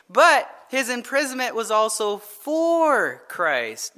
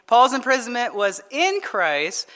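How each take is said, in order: First: "for" stretched out long before "Christ"; slow down and hold the word "for"; stress on FOR. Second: "in" leaned on before "Christ"; stress on IN. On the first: Preacher adding his second point to the congregation, "for" drawn out. Sets for against in. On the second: Preacher making a first point to the congregation, stressing "in". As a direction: put the weight on "in". Sets in against for. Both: Shown as a demonstration.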